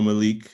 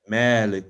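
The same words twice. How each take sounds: First: The first vowel is short. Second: The first vowel is drawn out long. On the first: It means king. "Malik means king" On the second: It means master. "Malik with a long A"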